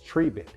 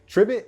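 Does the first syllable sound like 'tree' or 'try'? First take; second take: tree; try. First: The first syllable sounds like 'tree'. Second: The first syllable sounds like 'try'. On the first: The speaker calls it right. "it is Treebit" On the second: The speaker calls it wrong. "it's not Tribit"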